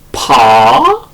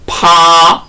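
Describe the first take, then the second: First: The pitch rises from mid to high. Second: The pitch stays high and level. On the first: "제이 성으로" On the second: "제일 성으로"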